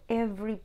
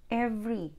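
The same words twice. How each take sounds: The two takes are said the same way.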